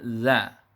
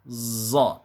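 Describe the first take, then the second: First: The consonant and vowel sound thin. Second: The consonant sounds hissing like a z. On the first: "kurang tebal sehingga bunyinya menjadi za" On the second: "tercampurnya bunyi sofir ... tentu ini kesalahan"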